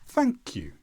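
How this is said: The pitch starts high and falls on 'you'. The speaker sounds polite and grateful. The speaker calls it right. "start with high intonation on thank and then lower intonation with you"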